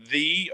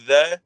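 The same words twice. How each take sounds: First: "the" said slowly as "thee"; "the" rhyming with "see"; pronunciation of "the". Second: "the" said as "thuh"; everyday unstressed "the", as in "thuh"; pronunciation of "the". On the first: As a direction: draw out "the" with a long ee vowel. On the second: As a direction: say "the" with a short neutral vowel. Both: Shown as a demonstration. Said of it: "or the shoeshine".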